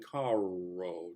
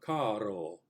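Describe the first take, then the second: First: The R is a smooth English-style R. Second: The R is a quick tap, almost like D. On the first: The speaker calls it wrong. "a flip or something other than caro, never that" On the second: The speaker calls it right. "if you think of the the R almost as a D sound"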